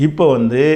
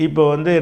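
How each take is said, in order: The two takes are said the same way.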